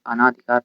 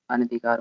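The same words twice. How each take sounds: First: "अनाधिकार" with a long आ after न; wrong pronunciation. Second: "अनधिकार" with short vowel after न; correct pronunciation. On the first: Teacher showing students the common error, "अनाधिकार" with long ना. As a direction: stretch न to ना in "अनाधिकार". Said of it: "अनाधिकार नहीं होता". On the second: Teacher correcting the error for students, "अनधिकार" with short न. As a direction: keep न short in "अनधिकार", never ना. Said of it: "अनधिकार होता है". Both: Shown as a demonstration.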